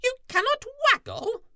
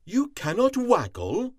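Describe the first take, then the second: First: Very high, loud, fast squeaky question; shocked squirrel squeak; stunned squirrel. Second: High, louder astonished question; Cat can't believe it; shocked cat voice; stunned cat. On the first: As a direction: Squirrel can't believe it. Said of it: "Squirrel was stunned". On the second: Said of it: "Cat was stunned". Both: A narrator's reading.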